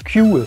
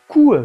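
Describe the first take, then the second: First: The letter is said the English way. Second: The letter is said the French way. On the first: The speaker calls it wrong. "c'est un peu prononcé à l'anglaise" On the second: The speaker calls it right. "Mais non, il se prononce Q"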